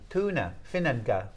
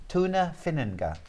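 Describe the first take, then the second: Both takes have the same delivery.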